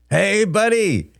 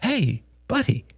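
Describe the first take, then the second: First: High, drawn-out cheery hail; big, stretched-out hello; hearty greeting. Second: High-pitched, gentle coaxing; calm a crying child tenderly; soft-edged comforting greeting; soothing father. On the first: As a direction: greet a long-missed pal in a raised voice. Brother greets brother with hug. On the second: Father soothes his crying son. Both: Acted.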